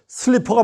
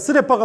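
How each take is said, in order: First: It is said close to English, seul-li-peo. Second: It is said Japanese-style, sseu-re-ppa. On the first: "슬리퍼를 써놓고" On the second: "일본 표기법으로는 쓰레빠로 쓸 수밖에 없는 것"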